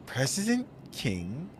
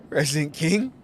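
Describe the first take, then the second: First: Slow mock repeat. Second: Laughing disbelief. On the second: Acted. Laughing at the title.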